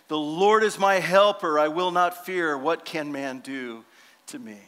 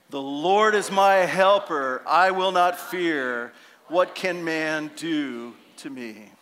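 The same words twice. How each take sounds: First: It is said timidly, without conviction. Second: It is said boldly, with conviction.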